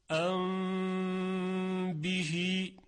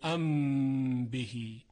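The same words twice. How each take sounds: First: The m is hidden with a lengthened nasal hum. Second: The m is a full, clear closed-lip m. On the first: The speaker calls it right. "در مثال ام بهی اینطور خوانده میشه" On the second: The speaker calls it wrong. "نمیگوییم ام بهی"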